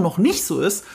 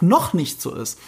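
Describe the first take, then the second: First: Said in the usual way. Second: Emphasis on "noch", ahead of "nicht so ist"; stress on NOCH. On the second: Shown as a demonstration. Podcaster clarifying a point to co-host, stressing "noch". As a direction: lean on the word "noch". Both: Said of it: "die Betonung liegt auf".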